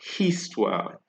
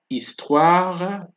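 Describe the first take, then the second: First: The word begins with an audible H sound. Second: The word begins directly with the vowel. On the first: The speaker calls it wrong. "and not histoire" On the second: The speaker calls it right. "Here you have histoire"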